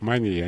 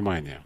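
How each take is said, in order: First: The stress is on the second syllable. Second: The stress is on the first syllable. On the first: It is the professional usage of psychiatrists. "так психиатр говорит мания" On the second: It is the ordinary everyday usage. "а не мания"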